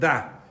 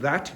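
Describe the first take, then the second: First: The final t becomes a glottal stop. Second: The final t is fully pronounced. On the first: "you're going to get that" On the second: "instead of that"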